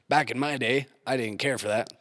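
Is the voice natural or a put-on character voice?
put-on. It is spoken in a put-on character voice. "I'm trying to do a cool voice"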